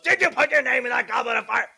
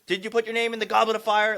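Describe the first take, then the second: First: It is shouted loudly and aggressively. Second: It is said sternly but without shouting.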